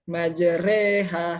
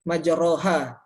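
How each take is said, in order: First: The vowel after the r leans toward e. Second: The vowel after the r is an open a. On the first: "huruf ro-nya itu dibaca re, majre" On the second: "Jadi awalnya majroha gitu ya"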